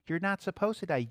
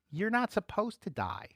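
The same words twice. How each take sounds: First: "supposed" hit, the rest eased; stress on supposed. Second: "not" leaned on, falling line; stress on not. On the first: Preacher repeating the line, stress on "supposed". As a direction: lean on the word "supposed". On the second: Preacher telling the crowd, stress on "not". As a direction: press hard on the word "not". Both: Shown as a demonstration.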